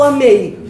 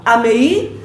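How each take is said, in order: First: "amei" falling, stressed e gliding into a weak i; correct diphthong. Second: "amei" split as a-me-I, stress on a separate final i; wrong stress. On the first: Teacher offering the class the right option, correct diphthong. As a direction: stress the e in "amei", let i drop. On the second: Teacher offering the class a false option, wrong stress. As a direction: draw out "amei" and lift the last i. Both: Shown as a demonstration. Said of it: "Vocês vão falar amei ou amei?".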